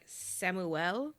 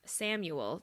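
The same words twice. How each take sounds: First: The name has a French pronunciation. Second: The name has an English pronunciation.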